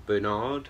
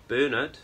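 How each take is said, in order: First: "Bernard" stressed on the second syllable with a clear r, ber-NARD; "Bernard" rhymed with hard. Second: "Bernard" stressed on the first syllable, no r sound, BER-nud; BER-nard. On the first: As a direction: say "Bernard" the American way, lean on the end. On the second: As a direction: say "Bernard" the British way, stress up front. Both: Shown as a demonstration. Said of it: "however you wanna say it".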